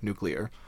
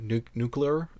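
First: The word is pronounced like 'nuclear'. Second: The word is pronounced like 'nucular'. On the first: The speaker calls it right. "instead of nuclear" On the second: The speaker calls it wrong. "I said it the wrong way. The way that George W. Bush says it"

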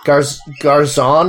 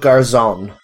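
First: The final N sound is dropped. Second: The final N sound is pronounced. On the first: The speaker calls it wrong. "I tried to sort of chop off the N at the end there" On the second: The speaker calls it right. "I'm pretty sure you don't do that in Spanish"

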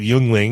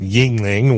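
First: The first syllable sounds like 'yuen'. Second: The first syllable sounds like 'ying'. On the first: This is closer to how the spelling reads. "I'm going to call it Yuengling because that actually sounds closer to what it should be" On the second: This is how the locals say it. "Everyone around here pronounces it Yuengling"

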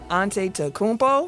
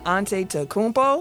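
First: Every letter of the spelling is pronounced. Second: Every letter of the spelling is pronounced.

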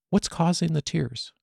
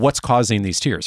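First: The question sounds light and curious. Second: The question sounds sharp and accusing. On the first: The listener feels invited to share. The speaker calls it right. "from a place of lightness and curiosity and heart" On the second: The listener is put on the defensive. The speaker calls it wrong. "you could still say it in a way that puts people on the defensive"

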